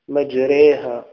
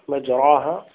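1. الحرف المتحرك بعد الراء ممال نحو e. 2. الحرف المتحرك بعد الراء فتحة كاملة a. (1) "لكن عند حفص مجريها" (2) "لو لم نأتي بالإمالة لكانت مفخمة مجراها"

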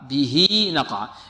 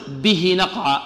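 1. يُوصل 'h' بـ'ee' بعده. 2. يُنطق 'h' بدون 'ee' بعده. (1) "نصلها بيا إذا كانت بين متحركين" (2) "خطأ"

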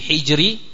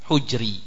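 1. Vokal pertama adalah i. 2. Vokal pertama adalah u.

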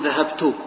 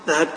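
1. تنتهي الكلمة بحركة قصيرة u. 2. تنتهي الكلمة بحركة قصيرة i. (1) "يمكن أحركها بالضم أقول" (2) "وبالكسرة"

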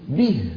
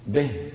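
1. تُنطق بالنطق الفصيح القرآني. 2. تُنطق بالنطق العامي الدمشقي. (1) "يجب أن أقول إيه؟ به" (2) "نحن في العامية نقول مثلا به به"

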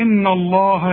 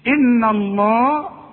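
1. النهاية تُنطق ثقيلة ومفخمة. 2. النهاية تُنطق خفيفة ومرققة. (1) "بتفخمها لي" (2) "متفصلش فيها مرققه"

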